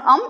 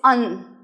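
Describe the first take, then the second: First: The nasal is said with closed lips, like m. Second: The nasal is said with the tongue, like n. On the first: The speaker calls it wrong. "it's not um" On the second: The speaker calls it right. "it's an"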